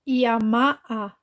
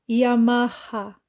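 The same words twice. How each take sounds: First: The h is silent. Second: The h is sounded like a throaty r. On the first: The speaker calls it wrong. "Não" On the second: The speaker calls it right. "Porque essa letra tem som de R"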